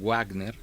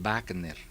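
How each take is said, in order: First: The word begins with a w sound. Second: The word begins with a v sound. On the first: This is how the word is written. "los alemanes escriben" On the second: This is how Germans actually say it. "pero pronuncian"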